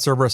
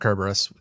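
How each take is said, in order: First: The name begins with a soft S sound. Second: The name begins with a hard K sound.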